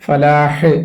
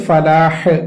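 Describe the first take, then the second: The two takes are said the same way.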